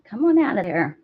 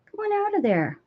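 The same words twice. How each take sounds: First: Said in the usual way. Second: Much higher pet-talk coax; coaxing the cat out of the wool box, high. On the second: Real, not acted.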